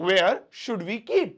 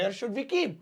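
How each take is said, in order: First: Each word slowed right down for learners; slow repeat. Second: Said in the usual way. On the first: Shown as a demonstration. Teacher repeating the phrase slowly for students. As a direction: spell it out slowly so students catch it.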